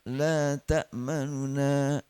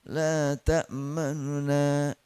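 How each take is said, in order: The two takes are said the same way.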